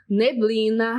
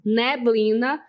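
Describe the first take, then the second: First: The pretonic vowel is pronounced closed. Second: The pretonic vowel is pronounced open. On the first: This is the tendency further south. "teriam a pronúncia mais fechada" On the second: This is the tendency in the Northeast. "teria uma pronúncia mais aberta"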